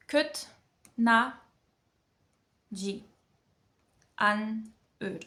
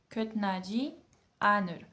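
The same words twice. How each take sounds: First: Syllable by syllable. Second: Said in the usual way. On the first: Shown as a demonstration. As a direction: sound out each syllable separately, long pauses between. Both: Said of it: "on apprend chaque syllabe".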